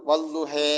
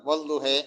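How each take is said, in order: The two takes are said the same way.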